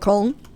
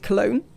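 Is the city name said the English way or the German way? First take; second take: German; English. First: The city name is said the German way. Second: The city name is said the English way.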